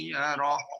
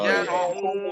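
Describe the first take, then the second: First: The word stops short without the final hu. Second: The final hu syllable is pronounced, flowing on. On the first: The reading stops at this word. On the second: The reading continues into the next phrase.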